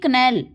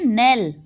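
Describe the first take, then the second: First: The word begins with a k sound. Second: The word begins with an n sound. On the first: The speaker calls it wrong. "कनेल गलत हो जाएगा" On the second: The speaker calls it right. "इसको हम पढ़ेंगे नेल"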